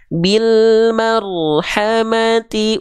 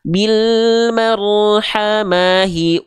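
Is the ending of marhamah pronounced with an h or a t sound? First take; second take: t; h. First: Marhamah ends with a t sound before the vowel. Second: Marhamah ends with an h sound before the vowel. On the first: The speaker calls it right. "tapi bil marhamati ulaika. Jadi huruf ta" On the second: The speaker calls it wrong. "Nggak dibaca gini"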